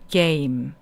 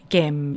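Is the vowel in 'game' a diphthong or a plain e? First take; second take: diphthong; plain e. First: The vowel glides from e to i. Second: The vowel is a plain, single e sound. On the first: The speaker calls it right. "얘는 에 이 발음이 소리가 나요" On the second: The speaker calls it wrong. "이게 아니라"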